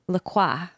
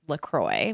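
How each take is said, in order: First: The name is said with a French pronunciation. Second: The name is said with an American pronunciation. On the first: The speaker calls it right. "What's the right way? La Croix. Like the cross" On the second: The speaker calls it wrong. "the hipster pronunciation, which is LaCroix, which is wrong"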